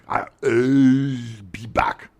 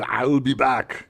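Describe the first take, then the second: First: I will is said as two full words. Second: I will is contracted into one syllable. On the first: The speaker avoids the hard contracted form. "can I just say I will be back?" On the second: The speaker manages the line as written. "I got it"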